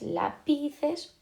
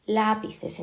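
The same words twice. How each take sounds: First: LaPIces, the middle syllable drawn out slowly; stress on middle syllable. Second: LÁpices, LÁ stretched and firm; stress on first syllable. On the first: Teacher trying a wrong option, lápices stressed on PI. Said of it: "¿dónde está la sílaba fuerte?". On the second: Teacher confirming it is esdrújula, Lápices stressed on LÁ. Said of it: "decimos que es esdrújula". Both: Shown as a demonstration.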